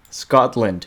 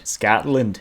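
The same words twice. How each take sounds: First: Said in the usual way. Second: A half-hearted Scottish "Scotland"; a hint of Scottish, badly done; weak Scottish accent try. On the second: Shown as a demonstration. Viewer asked for Scotland, a weak Scottish try. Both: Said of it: "that was so bad".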